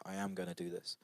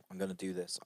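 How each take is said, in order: First: "am" picked out in a quiet restatement; quietly firm, leaning on "am"; stress on AM. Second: Said in the usual way. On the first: Acted. Speaker models resolving to make the effort, stress on "am". Repeats resolve with the full verb.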